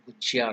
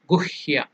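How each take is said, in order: First: The middle consonant is pronounced as a 'j' sound. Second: The middle consonant is pronounced as an 'h' sound. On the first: The speaker calls it wrong. "they can't pronounce, they will make it Gujya" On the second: The speaker calls it right. "correct pronunciation. It is Sanskrit is Guhya"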